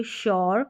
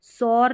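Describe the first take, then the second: First: शौर starting with a "sh" sound; correct pronunciation. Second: सौर starting with a plain "s"; wrong pronunciation. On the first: Teacher showing learners that s becomes sh, correctly pronounced. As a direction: begin शौर with sh, not s. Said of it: "एस का उच्चारण श हो रहा है". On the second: Teacher warning learners against reading sure with s, mispronounced. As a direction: begin सौर with s, not sh. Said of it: "इसको सौर नहीं बोलेंगे". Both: Shown as a demonstration.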